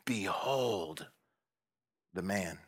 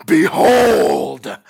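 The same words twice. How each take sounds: First: "Behold the man" soft and low; hushed. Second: "Behold" high and loud, drawn out; loud proclaiming. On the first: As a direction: let "Behold the man" sink in quietly. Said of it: "it means look, feast your eyes". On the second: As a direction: call out "Behold" to stop them. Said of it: "I said it like this". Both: Shown as a demonstration.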